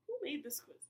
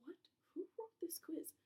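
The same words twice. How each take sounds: First: Exasperated outburst. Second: Whispered disbelief. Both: Real, not acted. Baffled by badly worded question.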